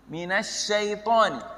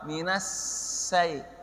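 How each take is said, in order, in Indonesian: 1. Konsonannya dibaca seperti bunyi sh. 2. Konsonannya dibaca seperti bunyi s biasa. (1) "huruf shin" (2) "Jadi campur dengan huruf sin"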